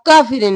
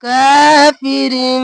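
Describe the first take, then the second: First: काफिरिन rushed, the alif not stretched; wrong reading. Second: काफिरिन with the long का held; correct recitation. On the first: Teacher showing students the rushed mistake. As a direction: say काफिरिन fast and flat. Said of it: "अब काफिरिन नहीं करेंगे". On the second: Teacher demonstrating the lengthened alif for students. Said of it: "खींचेंगे". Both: Shown as a demonstration.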